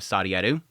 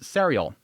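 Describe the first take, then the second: First: The name is pronounced the Japanese way. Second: The name is pronounced the English way. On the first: "pronounce it the Japanese way" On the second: "I want to read it English-like"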